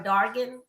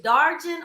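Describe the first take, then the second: First: "Dargan" with a hard g; hard g in the middle of "Dargan"; hard-g pronunciation. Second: "Darjan" with an English soft g; soft j in the middle of "Darjan"; soft-g pronunciation. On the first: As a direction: say "Dargan" as DAR-gin, g as in go. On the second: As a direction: say "Darjan" as DAR-jin, with a j sound. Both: Shown as a demonstration. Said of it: "Now, tell me, is it".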